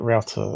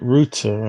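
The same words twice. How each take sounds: First: It is said with an American pronunciation. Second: It is said with a British pronunciation. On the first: The speaker calls it right. "American way" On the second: The speaker calls it wrong. "they call it router in U K"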